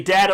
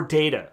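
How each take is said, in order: First: Data with the short a of cat; first vowel of data as in bat; data as DAT-uh. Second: Data with the long a of day; first vowel of data as in late; data as DAY-tuh. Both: Shown as a demonstration. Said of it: "It could be data or data".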